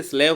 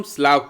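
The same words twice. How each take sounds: First: स्लेव with an "ay" vowel; स्लेव, students' misreading with a long "e"; mistaken pronunciation. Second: स्लाव with a long "aa" vowel; स्लाव, open "aa" as in "father"; correct pronunciation. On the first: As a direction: say स्लेव like English "slave". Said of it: "बच्चे गलती से स्लेव पढ़ते हैं". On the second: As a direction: say स्लाव to rhyme with "suave", open aa. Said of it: "इसको हम स्लाव पढ़ते हैं". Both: Shown as a demonstration.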